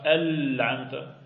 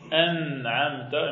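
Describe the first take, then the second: First: The first consonant is an l sound. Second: The first consonant is an n sound. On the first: The speaker calls it wrong. "et non pas" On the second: The speaker calls it right. "Bien dire"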